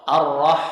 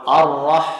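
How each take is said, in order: The two takes are said the same way.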